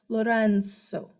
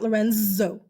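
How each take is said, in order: First: The middle consonant sounds like an S. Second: The middle consonant sounds like a Z. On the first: The speaker calls it right. "it's almost said as an S" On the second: The speaker calls it wrong.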